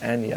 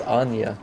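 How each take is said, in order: First: "Anya" said the partner's way, ANN-ya; partner's pronunciation. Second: "Anya" said the speaker's own way, AHN-ya; own pronunciation. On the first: Co-caster quoting partner's reading, "Anya" as ANN-ya. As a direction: say "Anya" with a short A, as in "Annie". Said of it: "you pronounce it as Anya". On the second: Co-caster comparing name readings, "Anya" as AHN-ya. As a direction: say "Anya" with a broad AH. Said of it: "I've always pronounced it as Anya". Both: Shown as a demonstration.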